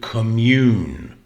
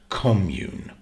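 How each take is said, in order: First: The stress is on the second syllable. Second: The stress is on the first syllable. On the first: It is a verb meaning to share spiritual feelings. "now we stress the second syllable" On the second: It is a noun for a shared living group. "you stress the first syllable"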